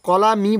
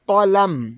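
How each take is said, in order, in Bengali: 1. শব্দের শেষে একটি অতিরিক্ত স্বরধ্বনি যুক্ত হয়েছে। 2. শব্দটি একটি খালি ব্যঞ্জনবর্ণে শেষ হয়। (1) "কলামি বলা যাবে না" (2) "মিমের উপর আমরা সাকিন ধরে নিয়েছি"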